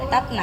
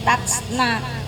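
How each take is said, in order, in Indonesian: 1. Huruf t mati dilepas dengan hembusan samar. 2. Huruf t mati dilepas dengan hembusan kuat. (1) "Tapi sebenarnya ada pelan gitu" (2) "jangan terlalu dikuatkan seperti tatsna itu"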